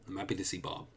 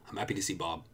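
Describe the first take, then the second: Both takes have the same delivery.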